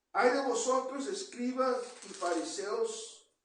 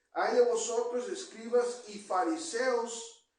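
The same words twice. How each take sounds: The two takes are said the same way.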